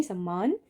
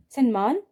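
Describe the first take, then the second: First: सम्मान with a long double m; correct form. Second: सम्मान said as sanman with n then m; wrong form. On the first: Teacher giving the right spelling: सम्मान with double m. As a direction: say सम्मान with a held mm. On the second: Teacher showing the wrong spelling: सम्मान as sanman. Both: Shown as a demonstration. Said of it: "सम्मान नहीं".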